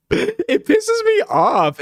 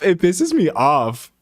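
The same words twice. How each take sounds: First: High, slow, strained squeal on "It pisses me off"; mock frustration. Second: Said in the usual way. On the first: Shown as a demonstration. Annoyed at turning into a flip-flop person, squealed high and slow. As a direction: stretch "It pisses me off" out high and whiny.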